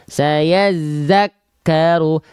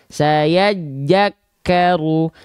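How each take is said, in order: First: The second word starts with a z-like sound. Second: The second word starts with a j sound. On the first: The speaker calls it right. "yang harusnya kita baca saya zakaru" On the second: The speaker calls it wrong. "Banyak orang melafalkan saya jakaru"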